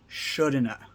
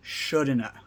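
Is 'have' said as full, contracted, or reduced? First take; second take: reduced; reduced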